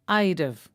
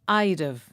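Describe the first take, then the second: First: It is contracted, with the h of have dropped. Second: It is contracted, with the h of have dropped.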